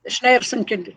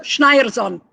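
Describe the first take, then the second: First: 'Schneerson' said with an ay sound, SHNAY-er-son; 'Schneerson' with a flat ay vowel, no z; Schneerson pronunciation. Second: 'Schneierson' said SHNY-er-zon with a z; careful 'Schneierson' with an eye sound and a z; corrected pronunciation. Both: Shown as a demonstration.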